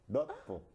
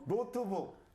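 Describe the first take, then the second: First: The first syllable is said clipped and short. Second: The first syllable is said full and plain.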